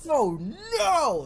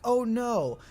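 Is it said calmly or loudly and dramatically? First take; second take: loudly; calmly. First: It is said loudly and dramatically. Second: It is said calmly and quietly.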